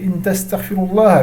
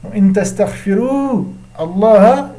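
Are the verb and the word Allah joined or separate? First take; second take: joined; separate. First: The two words are linked into one flow. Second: The two words are said separately, without linking.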